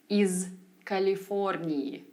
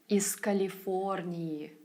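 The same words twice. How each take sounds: First: Said carefully, with the z sound kept voiced. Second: Said smoothly, with the z sound devoiced. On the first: The speaker calls it wrong. "I'd enunciate certain sounds" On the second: The speaker calls it right. "it must have sounded more effortless and natural"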